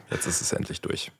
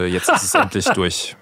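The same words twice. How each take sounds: First: Whispered, far softer than usual; hushed repeat. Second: Said in the usual way. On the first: Real, not acted. Guest relieved after sleepless nights, hushed.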